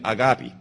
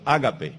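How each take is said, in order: First: The word is pronounced the English way. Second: The word is pronounced the Spanish way.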